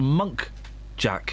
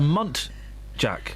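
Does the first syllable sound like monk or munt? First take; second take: monk; munt. First: The first syllable sounds like monk. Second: The first syllable sounds like munt. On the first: The speaker calls it wrong. "I thought it was a Monk Jack" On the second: The speaker calls it right. "I only found out recently it's it's a Munt Jack"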